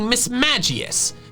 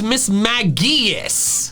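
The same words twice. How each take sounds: First: The middle part sounds like the word 'magic'. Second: The middle part is said with a hard G. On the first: The name is taken to come from magic. The speaker calls it right. "the middle part of its name is coming from magic" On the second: This is the official form. The speaker calls it wrong. "The official pronunciation ... The hard G is ridiculous"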